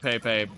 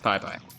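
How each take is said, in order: First: The name is said like 'peh-peh'. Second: The name is said like 'pie-pie'. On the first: This is the speaker's own habitual way of saying it. "I pronounce it Pepe" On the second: This is how others claim it should be said. "it's actually pronounced Pai Pai"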